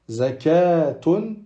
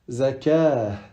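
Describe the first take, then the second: First: The word ends in a t sound plus vowel. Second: The word ends in a soft h sound. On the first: The reading continues past the word. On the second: The reading stops on the word.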